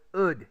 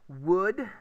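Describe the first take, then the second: First: The word begins with a vowel, no W. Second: The word begins with a W sound.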